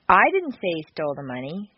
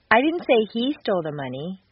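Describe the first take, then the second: First: The stress is on the word I. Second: The stress is on the word he.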